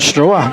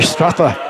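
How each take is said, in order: First: The surname is said as 'Stroa'. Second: The surname is said as 'Strapper'. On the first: The speaker calls it wrong. "I was saying Stroa" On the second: The speaker calls it right. "but it's actually Strapper"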